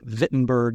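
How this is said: The name is said with a German pronunciation.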